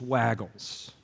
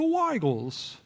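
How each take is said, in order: First: The name is said in a plain local way. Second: The name is said in a fancy, posh way. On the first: This is how locals say the name. The speaker calls it right. "We live in East Tennessee. It's Waggles" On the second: This way sounds pretentious and odd. The speaker calls it wrong. "Waggles sound like, let's go to Waggles. Let's get some Grey Poupon"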